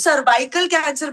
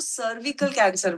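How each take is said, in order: First: The second syllable has a long 'vai' sound. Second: The second syllable has a short 'vi' sound. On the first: The speaker calls it wrong. "वो उसको सर्वाइकल cancer बोलते हैं। वो सर्वाइकल नहीं है भाई साहब" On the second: The speaker calls it right. "उसको सर्विकल कैंसर बोलते हैं"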